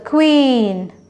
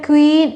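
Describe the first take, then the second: First: The vowel sound is long. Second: The vowel sound is short. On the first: The speaker calls it right. "it's a queen" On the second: The speaker calls it wrong. "It's not a queen"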